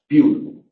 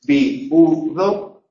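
First: "piu" run together as a diphthong; joined syllables. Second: "bi, u, do" in three detached syllables; separate syllables. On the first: Teacher showing the other pronunciation, "piu" in one joined syllable. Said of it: "o en sílabas juntas". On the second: Teacher showing one possible pronunciation, "bi, u, do" syllable by syllable. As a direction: break "bi, u, do" apart, i and u separate. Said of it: "en sílabas diferentes". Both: Shown as a demonstration.

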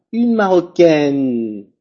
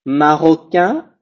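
First: "marocaine" slow, with a clear final n; slow feminine with the n pronounced; final n sounded. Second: "Marocain" slow, ending on a nasal vowel with no n; slow masculine form with no final n. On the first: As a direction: land hard on the n of "marocaine". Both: Shown as a demonstration. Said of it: "Pronuncio la N final".

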